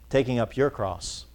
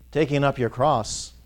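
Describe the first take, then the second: No difference in how they are said.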